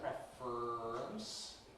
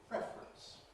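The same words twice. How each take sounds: First: The r itself forms the middle syllable. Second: It is compressed to two syllables with plain r. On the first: "syllabic consonant formation, which makes it preference" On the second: "compression that removes the syllabicity"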